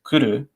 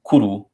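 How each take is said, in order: First: The u vowel has compressed, unrounded lips. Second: The u vowel has rounded, protruded lips. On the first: "the little compressed lips mark uh, in the context of the u vowel" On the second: "as opposed to kuru or kuru, or however you might naturally pronounce it"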